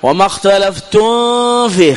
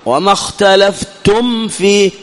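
First: The m is hidden before the f. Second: The m is clear with closed lips. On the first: The speaker calls it wrong. "بعضهم يخطئ، وما اختلفتم فيه، خطأ" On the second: The speaker calls it right. "إظهار، وذلك بإطباق الشفتين"

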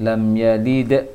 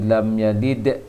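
No difference in how they are said.

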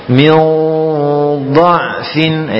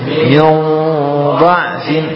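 Both takes have the same delivery.

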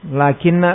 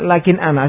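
First: It is said as one merged word with doubled n. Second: It is said as two separate words with the glottal stop. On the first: This is the contracted form used in the verse. "asal dari lakinna adalah lakin ana" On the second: This is the original underlying form. "asal dari lakinna adalah lakin ana"

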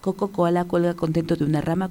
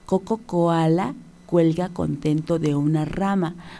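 First: The sentence is said very quickly. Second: The sentence is said slowly and carefully. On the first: "muy, muy rápido, lo más rápido que puedas" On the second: "hay que repetirlo primero lento"

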